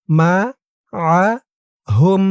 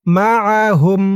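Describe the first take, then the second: First: মাআহুম broken slowly into মা, আ, হুম with pauses; syllable by syllable. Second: মাআহুম chanted in one connected breath; joined recitation. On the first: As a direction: spell out মাআহুম one separate syllable at a time. Teacher splits word into syllables. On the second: Teacher recites word joined. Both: Shown as a demonstration.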